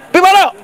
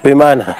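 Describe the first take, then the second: First: It is said in a high, cheerful voice. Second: It is said in a slurred, drunken voice. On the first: The person is well and friendly. The speaker calls it right. "Kalau dong suara tinggi itu kelihatan baik itu" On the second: The person is drunk. The speaker calls it wrong. "itu dia dia mabok"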